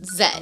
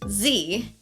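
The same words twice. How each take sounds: First: The letter is said the Canadian way, zed. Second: The letter is said the American way, zee.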